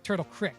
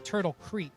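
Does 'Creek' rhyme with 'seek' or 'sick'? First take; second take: sick; seek. First: Creek is said like crick, Pittsburgh style. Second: Creek is said with a long ee vowel.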